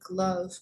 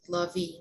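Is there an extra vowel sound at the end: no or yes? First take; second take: no; yes. First: It ends without an extra vowel sound. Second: It ends with an extra vowel sound. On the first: The speaker calls it right. "That E is silent" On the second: The speaker calls it wrong. "It's not like"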